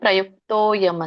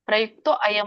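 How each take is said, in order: First: The two words run together, dropping the vowel. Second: The two words are separate, keeping the vowel. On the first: "ನಾವ್ ಹೇಳ್ಬೇಕಾಗಿರೋದು ಪ್ರಯುಕ್ತೋಯಂ ಅಂತ" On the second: "ಅದ್ ಹೇಳ್ಲಿಕ್ಕೆ ಆಗದಿದ್ರೆ ಪ್ರಯುಕ್ತೋ ಅಯಂ ಅಂತ ಹೇಳ್ಬೋದು"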